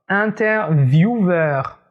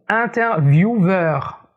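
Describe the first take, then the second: No difference in how they are said.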